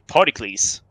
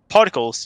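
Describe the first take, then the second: First: The word is pronounced like an ancient Greek name. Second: The word has its ordinary English pronunciation. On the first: "pronounce everything like it was Greek names" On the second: "instead of saying particles"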